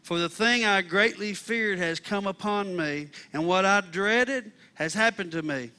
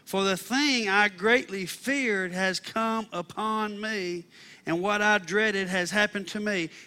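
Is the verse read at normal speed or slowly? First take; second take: normal speed; slowly. First: It is read at a normal pace. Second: It is read slowly and deliberately.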